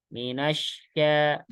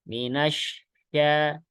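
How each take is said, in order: Both takes have the same delivery.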